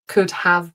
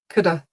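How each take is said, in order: First: The word 'have' is pronounced in full. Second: The word 'have' is reduced to 'uh'. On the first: The speaker calls it wrong. "not could have broken it" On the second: The speaker calls it right. "It's more like a uh"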